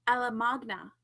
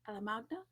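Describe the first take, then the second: First: Said in the usual way. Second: Alamagna softer, rising as a question; unsure questioning. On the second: Shown as a demonstration. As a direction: try out "Alamagna" quietly, lifting the end in doubt. Unsure of author's name, trying it.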